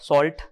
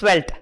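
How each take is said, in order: First: The word sounds like 'salt', without a 'v'. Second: The word sounds like 'svelte', with a 'v'. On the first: The speaker calls it wrong. "I have heard people pronouncing Svelte as salt" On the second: The speaker calls it right. "So it's Svelte"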